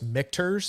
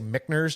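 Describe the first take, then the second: First: The middle consonant is a T sound. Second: The middle consonant is an N sound. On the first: The speaker calls it right. "I know it's Michter's" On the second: The speaker calls it wrong. "I always say it wrong"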